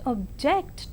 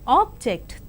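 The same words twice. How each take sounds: First: The stress is on the second syllable. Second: The stress is on the first syllable. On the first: It is used as a verb. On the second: It is used as a noun.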